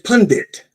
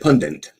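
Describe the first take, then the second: First: The second syllable has no N sound. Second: The second syllable has an added N sound. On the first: The speaker calls it right. "It's a it's pundit" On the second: The speaker calls it wrong. "most people say pundit, like there's an N in that second syllable"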